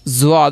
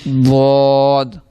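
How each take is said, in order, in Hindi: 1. यह गुनगुनाती z जैसी आवाज़ से शुरू होता है। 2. यह भारी d जैसी आवाज़ से शुरू होता है। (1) "ज़्वाद नहीं से पढ़ना" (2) "द्वाद द्वाद ज़्वाद नहीं से पढ़ना"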